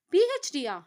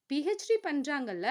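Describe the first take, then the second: First: "பி H Diya?" asked high and loud, stress on H, puzzled; a baffled "பி H Diya?", voice jumping up; confused. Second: Said in the usual way. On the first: A narrator's reading. Tharuni, puzzled by Vathani's news, asks "பி H Diya?" confused. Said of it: "என குழப்பத்துடன் கேட்க". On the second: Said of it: "என்றாள் வதனி".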